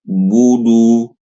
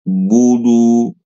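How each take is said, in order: No difference in how they are said.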